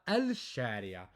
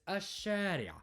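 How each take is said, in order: First: The l sound is pronounced before sh. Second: The l is silent and sh is doubled. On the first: The speaker calls it wrong. "not الشارع" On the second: The speaker calls it right. "It's الشارع"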